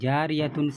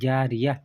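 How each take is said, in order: First: The word ends with a tun sound. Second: The word ends with an h sound. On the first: The reading continues past this word. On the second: The reader stops on this word.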